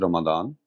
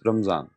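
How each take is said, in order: First: The middle consonant is a 'd' sound. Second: The middle consonant is a 'z' sound. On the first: This is the Arabic form. "in Arabic it is Ramadan"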